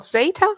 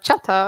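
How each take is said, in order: First: The name begins with a 'z' sound. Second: The name begins with a 'ch' sound. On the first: This is how the company itself says it. "That's how we pronounce it" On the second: This is another possible reading of the name. "in Spanish. They can even say it like chata"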